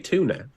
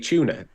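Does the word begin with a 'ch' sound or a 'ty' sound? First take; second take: ty; ch. First: The word begins with a 'ty' sound. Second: The word begins with a 'ch' sound. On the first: The speaker calls it right. "I say tuna" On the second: The speaker calls it wrong. "I don't say tuna"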